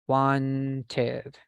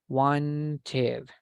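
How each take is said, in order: Both takes have the same delivery.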